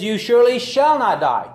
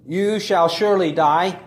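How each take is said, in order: First: Louder, higher defiant contradiction; serpent's denial. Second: Firm, stressed quote of God's words; God's words quoted. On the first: Preacher voicing the serpent contradicting God, loud and defiant. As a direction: throw the serpent's denial out boldly. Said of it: "He says". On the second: Preacher quoting God's warning, firm stress on surely. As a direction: lean on surely, the way God said it. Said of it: "The word God said". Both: Retold or imitated.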